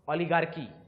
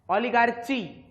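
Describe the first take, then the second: First: The middle consonant is said as 'k'. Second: The middle consonant is said as 'ch'. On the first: The speaker calls it right. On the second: The speaker calls it wrong.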